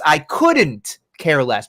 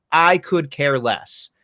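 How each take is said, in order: First: Slow, with "couldn't" stressed; correct version. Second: Slow, deliberate "I could care less"; "could" said slowly and flatly, as the wrong phrase; wrong version. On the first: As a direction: lean on "couldn't" and drag the phrase out. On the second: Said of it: "It's, "I couldn't care less". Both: Shown as a demonstration.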